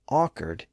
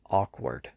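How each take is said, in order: First: The second syllable has no W sound. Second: The second syllable has a W sound. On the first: This is the older, historical pronunciation. "lost its W sound in the second syllable. It was apparently pronounced as awkward in the Elizabethan period" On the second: This is the usual pronunciation today. "today we generally pronounce it with its original pronunciation as awkward"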